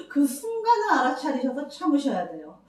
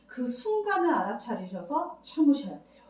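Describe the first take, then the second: First: Repeating it with a catch of tears; voice breaking. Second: Said in the usual way. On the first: Real, not acted. Counsellor telling mothers, voice breaking with tears. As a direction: let the voice crack with real emotion.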